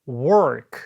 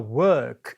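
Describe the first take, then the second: First: It is said with a North American accent. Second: It is said with a British accent. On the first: "work 하지 않고" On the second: "영국식 발음이니까 work 이렇게 발음하죠"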